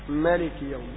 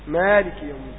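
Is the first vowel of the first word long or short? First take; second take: short; long. First: The first vowel is short, a plain fatha. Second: The first vowel is lengthened into a long alif. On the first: "قصرت الألف تؤتي فتحة فقط" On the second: "لو أشبعت الفتحة تؤتي ألف"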